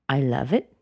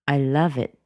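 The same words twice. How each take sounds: First: The pitch rises lightly at the end. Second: The pitch falls firmly at the end. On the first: The feeling is light and casual. "that's fine. I could be very light, very casual" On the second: The feeling is strong and sincere. "No, there was no upward rise"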